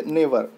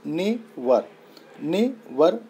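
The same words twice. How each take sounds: First: Said in the usual way. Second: never broken as ने, short gap, वर; split into syllables. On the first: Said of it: "इसका example देख लीजिए". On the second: Shown as a demonstration. Teacher showing learners two syllables in never, never split as ने and वर. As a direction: sound out both syllables of never separately, twice. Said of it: "ने single syllable हो गया".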